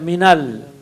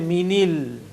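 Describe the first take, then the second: First: The linking vowel after 'min' is 'a'. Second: The linking vowel after 'min' is 'i'. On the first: The speaker calls it right. "you say minal" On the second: The speaker calls it wrong. "you don't say minil"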